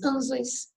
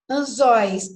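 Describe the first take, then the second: First: "anzóis" stressed on the first syllable, AN-zois; misplaced stress. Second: "Anzóis" stressed on the final open -zóis; stress on last syllable. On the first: Teacher showing it without accent, first-syllable stress on "anzóis". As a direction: hit the start of "anzóis", drop the ending softly. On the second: Teacher showing the accented word, final stress on "Anzóis". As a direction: land louder on the end of "Anzóis". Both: Shown as a demonstration. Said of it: "Não tem acento".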